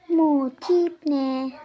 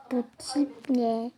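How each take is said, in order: First: Bu tip ne drawn out much louder; loud slow outburst. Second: Said in the usual way. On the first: Acted. Mocking a customer's look, loud and drawn out. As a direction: blast Bu tip ne, stretching each word.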